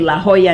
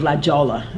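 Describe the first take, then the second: First: It is said with a Spanish pronunciation. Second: It is said with an English pronunciation.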